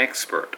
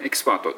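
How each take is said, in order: First: エキスパート with the first beat raised, ex-pert; English stress on expert. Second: Said in the usual way. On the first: Shown as a demonstration. Teacher showing the right English version of エキスパート. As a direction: lift the start of エキスパート English-style. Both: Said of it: "じゃなくて".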